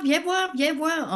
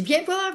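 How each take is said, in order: First: High, loud and slowed call; slower calling. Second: High, loud call. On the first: Husband Gilles keeps calling his wife over, a slower high loud call. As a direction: draw the call out, insisting. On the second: Husband Gilles calls his wife over at 2 a.m., a high loud call. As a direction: call her over from across the house. Husband calling her at night. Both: Retold or imitated.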